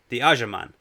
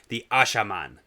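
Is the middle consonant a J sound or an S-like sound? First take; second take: J sound; S-like sound. First: The middle consonant is a J sound. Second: The middle consonant is a harder S sound. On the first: The speaker calls it wrong. "No. Ashaman" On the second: The speaker calls it right. "harder S ... that's a little better"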